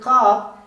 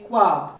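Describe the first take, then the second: First: There is no W sound after the first consonant. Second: A W sound follows the first consonant. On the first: "Instead of saying Khab" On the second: "they simply say Khwab"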